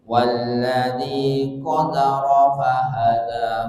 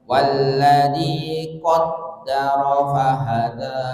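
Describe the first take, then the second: First: The d in the second word is single. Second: The d in the second word is doubled. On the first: "biduni tasdid" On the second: "ini pakai tasdid"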